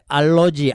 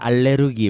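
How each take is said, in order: First: It is pronounced in the English-style form. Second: It is pronounced in the academic form. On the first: This is how English speakers say it. "영어는 알러지 이렇게 이제 이야기를 하지만" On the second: This is the form agreed on for scholarly use. "학술적으로는 뭐 알레르기라고 하자"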